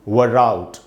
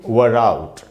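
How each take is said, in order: No difference in how they are said.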